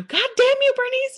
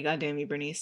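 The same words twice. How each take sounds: First: Very high, loud mock scream; movie-quote yell. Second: Said in the usual way. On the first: Girl Scouts scene from Dodgeball quoted, high mock scream. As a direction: shriek it as an exaggerated curse. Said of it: "then the, they go". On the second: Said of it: "I've always wanted to say".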